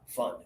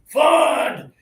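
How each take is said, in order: First: The word is said with light force. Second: The word is pushed out with full force. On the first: The speaker calls it right. "turn it down to thirty percent pressure, and that's good enough" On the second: The speaker calls it wrong. "if this is one hundred percent pressure"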